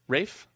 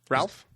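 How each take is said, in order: First: The name rhymes with 'safe', with no L sound. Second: The name rhymes with 'Alf', with an L sound.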